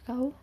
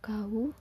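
First: The word is said short, in standard Indonesian. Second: The word is drawn out a little, dialect style. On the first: "kalau misalnya kau gimana ya bahasa Indonesia" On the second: "di Pontianak agak beda dialeknya ... agak lama dikit kali ya"

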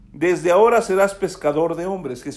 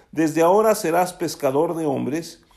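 No difference in how they are said.

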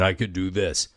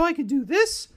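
First: It is spoken in a deep bass voice. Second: It is spoken in a high falsetto voice. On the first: "I had my bass" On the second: "I had my falsetto"

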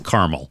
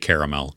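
First: The middle vowel is dropped, giving two syllables. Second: The middle vowel is kept, giving three syllables. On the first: The speaker calls it right. "I don't pronounce the second A, so it's caramel" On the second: The speaker calls it wrong. "I don't say caramel because that's just weird to me"

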